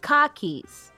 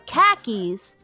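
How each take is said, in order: First: It is said in a Boston accent, like 'car keys'. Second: It is said in a plain, non-Boston accent.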